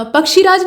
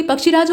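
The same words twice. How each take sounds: First: पक्षीराज said 'pak-shee-raaj'; पक्षीराज with long ई. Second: पक्षीराज said 'pak-shi-raaj'; पक्षीराज with short इ. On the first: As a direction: hold the क्षी in पक्षीराज long. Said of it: "नहीं बल्कि". (पक्षीराज में 'क्षी' दीर्घ बोलें) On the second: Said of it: "बल्कि पक्षीराज होता है". (पक्षीराज को 'पक्षिराज' बोलें) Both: Shown as a demonstration.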